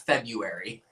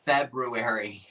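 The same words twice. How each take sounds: First: "February" as Feb-you-ary; February without first R. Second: Said in the usual way. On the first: Shown as a demonstration. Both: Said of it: "not February".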